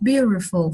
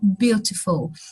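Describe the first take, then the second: First: It is said with an American accent. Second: It is said with a British accent. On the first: "aqui ele não falou beautiful" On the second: "falou beautiful"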